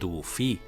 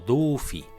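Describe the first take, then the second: First: The stress is on the last syllable. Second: The stress is on the first syllable. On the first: The speaker calls it right. "Diem dofí ... la síl·laba tònica és fi" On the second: The speaker calls it wrong. "no dufi"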